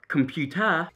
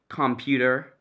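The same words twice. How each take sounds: First: British accent, ending with an 'uh' sound. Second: American accent, ending with an 'er' sound. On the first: "and then the British version" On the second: "the American accent saying the word computer"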